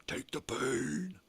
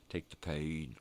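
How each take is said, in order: First: "take the pain" drawn out slow and much higher; stretched emphasis. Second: Said in the usual way. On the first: Real, not acted. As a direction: lean into "pain", stretching every word up high. Repeated with different stretch.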